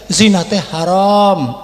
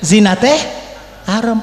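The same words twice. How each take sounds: First: It is said a little louder. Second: It is said quietly and gently. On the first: "agak kencengan dikit" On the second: "pelan suaranya"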